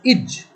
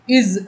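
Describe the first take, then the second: First: The word ends with a j sound. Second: The word ends with a z sound.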